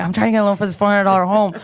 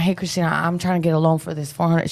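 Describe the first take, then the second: First: Rushed, louder restating of "four hundred dollar home"; emphatic fast repeat. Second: Said in the usual way. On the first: Retold or imitated. Telling the lender again after her surprised what, fast and emphatic. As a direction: blurt "I'm trying to get a loan" quickly and firmly.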